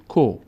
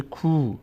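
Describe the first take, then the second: First: کو with a short o, as "ko"; short vowel. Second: کو with a drawn-out oo, as "kuu"; long vowel. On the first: Teacher shows the short vowel damma, short "ko". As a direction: say کو with a brief o sound. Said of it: "ببینیم تفاوت بین ضمه". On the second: Teacher shows the stretched vowel, long "kuu". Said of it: "صدای کشیدهٔ او". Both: Shown as a demonstration.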